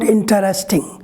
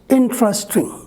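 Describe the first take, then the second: First: The word is said with more than three syllables. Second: The word is said with three syllables. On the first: The speaker calls it wrong. "not interesting" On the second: The speaker calls it right. "we generally pronounce three syllables"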